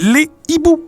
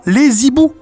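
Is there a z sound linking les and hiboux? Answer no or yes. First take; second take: no; yes. First: Les and hiboux are said without a linking z. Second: Les and hiboux are joined by a linking z. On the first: The speaker calls it right. "C'est les hiboux" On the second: The speaker calls it wrong. "c'est pas les hiboux"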